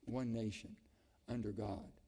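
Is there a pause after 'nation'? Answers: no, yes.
yes. There is a pause after 'nation'. The speaker calls it wrong. "we used to pause"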